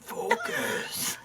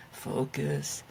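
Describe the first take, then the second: First: Imitating demon voice. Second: Low growling demon voice; a hint of a demon teacher. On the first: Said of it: "That was my demon teacher voice". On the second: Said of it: "in a demon voice?".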